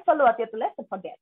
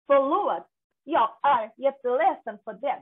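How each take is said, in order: First: Connected Swedish-accented phrase, words run together. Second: Slow, word-by-word Swedish demonstration; careful full words. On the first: Teacher showing how Swedes say sorry, connected Swedish accent. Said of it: "যদি আপনি অ্যাকসেন্টে বলেন". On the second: Teacher introducing the Swedish apology, slow and careful. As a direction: sound out each word of the Swedish apology slowly. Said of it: "একটা word completely উচ্চারণ করে না". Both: Shown as a demonstration.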